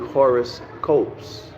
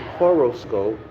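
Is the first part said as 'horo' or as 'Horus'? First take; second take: Horus; horo. First: The first part sounds like the name 'Horus'. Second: The first part sounds like ordinary 'horo'. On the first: The word is built on the name of a deity. "it's actually horoscopes" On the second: It is the familiar word for star charts. "when we see horoscope"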